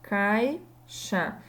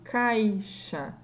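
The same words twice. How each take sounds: Both takes have the same delivery.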